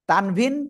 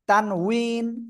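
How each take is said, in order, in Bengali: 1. মাঝের ব্যঞ্জনটি v ধ্বনি। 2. মাঝের ব্যঞ্জনটি w ধ্বনি।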